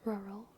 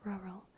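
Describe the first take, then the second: The two takes are said the same way.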